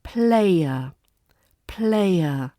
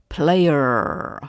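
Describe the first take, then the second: First: British RP player. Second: Player with a hard American R at the end. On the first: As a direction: say player the RP way, no harsh R. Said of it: "put them in the words". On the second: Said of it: "You hear player". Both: Shown as a demonstration.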